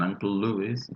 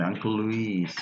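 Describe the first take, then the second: First: Uncle Louis with LU-is stressed at the start; English-style Louis, first syllable stressed; masculine-name pronunciation. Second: Uncle Luis with lu-IS stressed at the end; feminine-name pronunciation. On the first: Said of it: "si me dijesen Uncle Louis". (Uncle Louis con acento en LÚ) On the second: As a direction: say Luis like Louise, long final i. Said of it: "pero dice Uncle Luis". (Uncle Luis con la i acentuada y alargada) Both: Retold or imitated.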